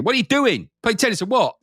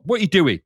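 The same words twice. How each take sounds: First: Higher, demanding What are you doing; hammed-up impatient challenge; mock aggressive. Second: A touch of pushy challenge in What; mildly demanding question; mock aggressive. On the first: Game menu imagined nagging the player, mock aggressive. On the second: Game menu imagined pushing the player, mildly aggressive. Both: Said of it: "It's almost aggressive with you".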